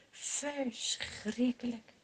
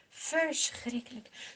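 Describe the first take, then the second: First: Slow, soft Verschrikkelijk drawn out in grief; sorrowful. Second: Slow Verschrikkelijk again, a little fuller; sorrowful echo. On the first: Narrator to children about David's grief, slow and soft. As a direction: breathe Verschrikkelijk out slowly and quietly. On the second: Narrator to children about David's grief, slow and sorrowful. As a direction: repeat Verschrikkelijk as a lingering sigh. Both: A narrator's reading.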